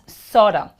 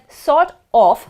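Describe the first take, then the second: First: It is said as one reduced word. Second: It is said as two full separate words. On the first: "becomes sorta" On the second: "that sort of becomes sorta"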